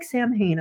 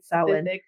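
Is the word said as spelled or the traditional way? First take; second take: as spelled; traditional. First: It is said the way the spelling suggests. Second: It is said the traditional Gaelic way. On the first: The speaker calls it wrong. "because it looks like Samhain" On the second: The speaker calls it right. "but it is indeed Samhain"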